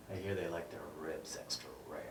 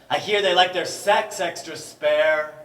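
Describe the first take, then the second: First: Low, soft, rushed aside; quiet and fast. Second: Loud, high declaiming shout. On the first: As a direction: toss it off quietly and quickly. Quick hushed echo line. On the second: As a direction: hurl the line out loud. Shouted line before quiet echo. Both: Acted.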